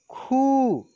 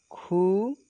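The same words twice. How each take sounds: First: खू pushed high, long, then falling; forceful long vowel. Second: खू said lightly with rising end; gentle short vowel. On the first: Teacher showing second of the pair, forceful long खू. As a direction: put force into a stretched खू. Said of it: "बाद वाले को जोर से बोलेंगे". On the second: Teacher showing first of the pair, gentle short खू. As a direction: ease up through a brief खू. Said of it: "एक को धीरे से बोलेंगे". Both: Shown as a demonstration.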